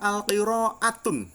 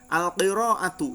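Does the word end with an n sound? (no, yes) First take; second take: yes; no. First: The word ends with an added n sound. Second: The word ends in a plain u vowel. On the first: The speaker calls it wrong. "yang tidak betul adalah" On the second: The speaker calls it right. "itu yang betul"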